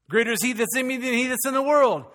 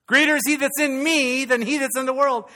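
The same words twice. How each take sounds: First: Raised voice, but without full punch; lacking potency. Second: High, loud preaching shout; full potency. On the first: Preacher tests how the congregation takes a familiar verse, less forceful delivery. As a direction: recite it high, holding some force back. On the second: Preacher repeats the verse to put potency back in, loud rallying cry. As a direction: belt out the verse with real force. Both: Shown as a demonstration. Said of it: "Didn't even have any potency right there".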